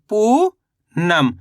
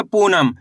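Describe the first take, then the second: First: Poonam very slow, पू long and rising, pause, then नम; word split in two. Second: Said in the usual way. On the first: Shown as a demonstration. Teacher reading the finished word to learners, very slowly in two parts. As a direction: break Poonam into पू ... नम. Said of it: "तो मिलके बन गया". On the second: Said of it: "क्या लिखेंगे?".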